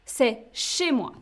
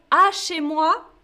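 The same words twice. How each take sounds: First: Chez stressed, falling tune; C'est chez moi said with chez stressed and a falling tune; the right way, C'est chez moi; correct form. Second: Wrong À chez moi, showing the error; wrong form. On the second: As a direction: stress on À before chez moi. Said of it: "ça n'existe pas". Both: Shown as a demonstration.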